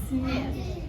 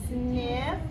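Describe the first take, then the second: The two takes are said the same way.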